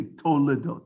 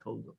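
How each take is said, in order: First: Toledot in three syllables, To-le-dot; careful pronunciation. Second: Toldot in two syllables, Tol-dot, tossed off softer; incorrect pronunciation. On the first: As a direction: sound the middle e in Toledot. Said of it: "Notice I say Toledot". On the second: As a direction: drop the middle e, saying Toldot. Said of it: "not Toldot". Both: Shown as a demonstration.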